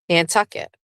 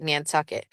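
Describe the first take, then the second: First: Nantucket said the local way, final t swallowed; local pronunciation. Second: Nantucket said low and soft the local way; local pronunciation. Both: Shown as a demonstration. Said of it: "That's how you gotta say it".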